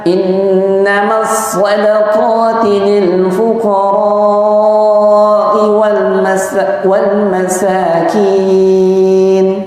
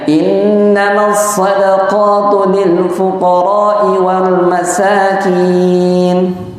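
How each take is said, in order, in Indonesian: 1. Vokal pada fuqara dibaca panjang. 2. Vokal pada fuqara dibaca pendek. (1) "dengan memanjangkan empat harokat pada ra" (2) "tanpa memanjangkan lil fuqara'i, tidak dibaca empat harakat"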